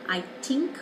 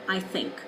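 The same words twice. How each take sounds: First: The word begins with a t sound. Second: The word begins with a th sound. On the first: The speaker calls it wrong. "a T" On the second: The speaker calls it right. "rather than I think"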